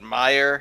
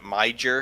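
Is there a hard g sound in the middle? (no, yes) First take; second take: no; yes. First: The middle has no g sound. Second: The middle has a hard g sound. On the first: The speaker calls it right. "as some people call it Meyer" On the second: The speaker calls it wrong. "pronounced it Miger"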